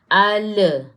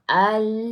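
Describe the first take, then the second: First: The final l bounces with an added vowel. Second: The final l stops cleanly without echo. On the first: The speaker calls it wrong. "dia jadi le. Jangan ada le" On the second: The speaker calls it right. "tak ada lantunan"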